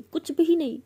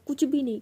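First: "कुछ भी नहीं" repeated higher and louder, hammered down on भी; escalate, yell "कुछ भी नहीं" full force; louder shout. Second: "कुछ भी नहीं" thrown out loud, falling at the end; bitter shout. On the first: Daughter repeating it louder as she yells at mother. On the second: Daughter throwing bitter words at her mother. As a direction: spit "कुछ भी नहीं" as an accusation. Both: Retold or imitated. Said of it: "ऐसे बहुत ज़ोर से चिल्लाते".

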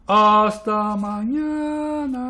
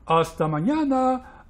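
First: High, very slow goodbye; long-held farewell. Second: Raised goodbye, slightly stretched; drawn-out farewell. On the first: Blot calling a last goodbye, long-held. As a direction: hold out "hasta" and "mañana" at length. Second goodbye, much longer. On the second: Blot saying goodbye to friends, lightly drawn-out. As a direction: call "mañana" higher, lengthening it a little. First goodbye, shorter take. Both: A narrator's reading.

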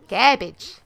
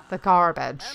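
First: Punchy "Garbage" in a bad mock accent; bad put-on accent. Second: Said in the usual way. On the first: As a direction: hit the word loudly in a clumsy fake accent. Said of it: "That's a really bad accent".

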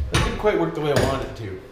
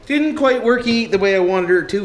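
First: Said in the usual way. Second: Higher and louder, leaning on quite; frustrated repeat. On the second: Real, not acted. Fed-up mechanic repeating himself to the boys, stress on quite. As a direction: say it again, hitting quite harder.

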